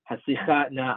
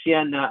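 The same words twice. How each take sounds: First: Haslichana stressed on the cha syllable; stress on the chet. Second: Hoshiana stressed on the shi syllable; stress on the shin. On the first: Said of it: "on the chet". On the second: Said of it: "on the shin". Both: Shown as a demonstration.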